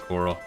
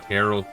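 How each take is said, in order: First: It sounds like the ordinary word coral. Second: It sounds like the name Carol. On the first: This is how the speaker would say it. "I would say coral" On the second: This is how the game's voice actors said it. "They said pronounced like Carol"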